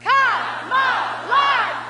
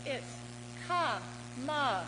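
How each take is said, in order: First: Chanted, ka-ma-la shouted very slow and much higher; chanted, roar "Ka-ma-la" like a stadium cheer. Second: Ka-ma-la said slowly, each syllable separate; syllables spelled out. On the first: Speaker leads the crowd, shouted chant. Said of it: "You wanna try it?". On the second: Speaker to the crowd, slow three-beat ka-ma-la. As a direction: break "ka-ma-la" into three slow beats. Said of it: "another word with three syllables". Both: Shown as a demonstration.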